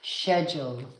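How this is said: It is said with a British accent.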